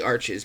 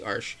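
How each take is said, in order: First: The word is said with two syllables. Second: The word is said with one syllable. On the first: The speaker calls it wrong. "A lot of people say Arches" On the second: The speaker calls it right. "but it is actually Arch"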